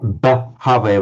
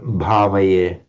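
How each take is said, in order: First: The first consonant is a plain b without aspiration. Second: The first consonant is a breathy aspirated bh. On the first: The speaker calls it wrong. "not bhavaye" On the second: The speaker calls it right. "but bhavaye"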